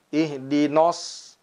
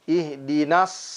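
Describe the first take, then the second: First: The nun vowel sounds heavy and rounded. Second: The nun vowel sounds thin and light. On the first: The speaker calls it wrong. "seringkali diucapkan ihdina, ihdinos" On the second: The speaker calls it right. "Padahal sesungguhnya"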